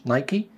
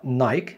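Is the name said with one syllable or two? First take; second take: two; one. First: The name ends with a final 'ee' sound. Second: The name ends without a final vowel sound. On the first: The speaker calls it right. "النطق الصحيح ليها هو نايكي" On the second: The speaker calls it wrong. "لو نطقتها نايك مش نايكي"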